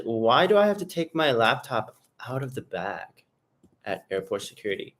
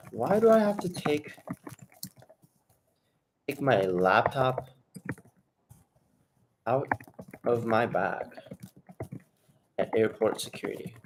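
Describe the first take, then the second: First: Said in the usual way. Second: Slow, drawn out, pausing between words; slow dictation. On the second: Shown as a demonstration. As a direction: dictate it slowly while writing it down. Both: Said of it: "I'm gonna actually write this down".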